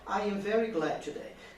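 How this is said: It is said smoothly as one joined phrase.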